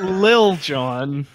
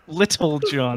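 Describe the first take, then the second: First: The first word is shortened to one syllable. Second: The first word is said fully with two syllables. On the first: The speaker calls it wrong. "Not Lil John" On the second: The speaker calls it right.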